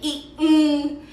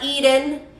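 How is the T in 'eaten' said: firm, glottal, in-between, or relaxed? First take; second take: glottal; relaxed. First: The T is replaced by a glottal stop. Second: The T is said softly and relaxed. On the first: "que es el glottal stop" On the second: "o T relajada"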